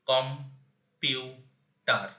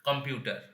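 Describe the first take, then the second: First: The word is split with breaks between syllables. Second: The word is said smoothly without breaks.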